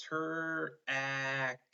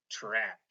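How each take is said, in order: First: "ter-ack" split into tr and ack; sounded out. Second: Said in the usual way. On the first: Shown as a demonstration. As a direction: say "ter-ack" in two separate drawn-out chunks. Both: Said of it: "we want to make sure we have".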